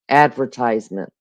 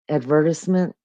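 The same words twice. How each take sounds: First: It is said in the American way. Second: It is said in the Australian way. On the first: "In America, we say advertisement" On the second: "I think they say, uh ad uh advertisement?"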